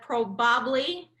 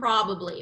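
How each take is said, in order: First: The stress is not on the first syllable. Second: The stress is on the first syllable. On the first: The speaker calls it wrong. "So instead of probably" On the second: The speaker calls it right. "We're going to do first syllable stress"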